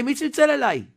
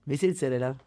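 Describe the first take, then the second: First: מי צלצל אליי shouted high and loud, stressing צלצל; indignant shout. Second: Said in the usual way. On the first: Retold or imitated. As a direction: demand it loudly, outraged. Manager shouting at the guard.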